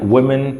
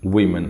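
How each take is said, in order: First: The first vowel sounds like 'oo'. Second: The first vowel sounds like 'ee'. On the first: The speaker calls it wrong. "इसकी pronunciation वुमेन में गलत बोल गया" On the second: The speaker calls it right. "E N लगाने से वीमेन हो जाती है इसकी प्रोनाउंसिएशन"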